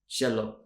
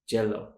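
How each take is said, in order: First: It starts with an SH sound. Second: It starts with a J sound. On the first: "maybe it's more of a sh sound" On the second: "they might say jello"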